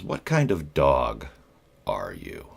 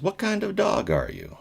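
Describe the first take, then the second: First: Slow, puzzled-sounding imitation of the boss; deadpan boss question. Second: Repeated much higher, mocking the boss. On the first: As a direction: drag the odd question out slowly. Boss's odd interview question. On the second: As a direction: pitch the repeat way up like a silly interviewer. Boss repeats the odd question.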